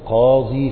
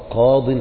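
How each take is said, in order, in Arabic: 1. تنتهي الكلمة بصوت 'ee' طويل. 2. تنتهي الكلمة بحركة قصيرة ثم نون. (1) "ما تقولش قاضي" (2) "مثل ما تقول حكم قضى قاض في القضية"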